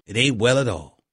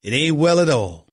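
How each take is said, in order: First: Softer mock Southern accent. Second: "It ain't well at all" in a firm Southern twang; mock Southern accent. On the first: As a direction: echo "It ain't well at all" quietly and lower, keeping the Southern accent. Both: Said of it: "with my regular Cowboy accent".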